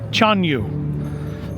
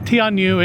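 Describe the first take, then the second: First: The name begins with a 'ch' sound. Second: The name begins with a 'tee' sound. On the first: The speaker calls it right. "It's apparently" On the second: The speaker calls it wrong. "I've been pronouncing the name of the show incorrectly. It's not"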